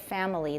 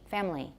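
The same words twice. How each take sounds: First: It is said with three syllables. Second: It is said with a partly reduced middle syllable. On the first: "you learned it as family. That has three" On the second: "we may often say something in between"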